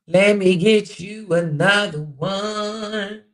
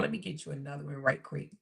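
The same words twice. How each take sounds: First: Louder, slow, stretched-out words; drawn-out singsong. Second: Said in the usual way. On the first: Real, not acted. Host stalling viewers while hunting for another quote, drawn-out singsong. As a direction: draw every word out while searching.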